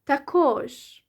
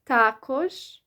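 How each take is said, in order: First: The stress falls on the second syllable. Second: The stress falls on the first syllable. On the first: "or the second syllable" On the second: "the stress is on the first syllable"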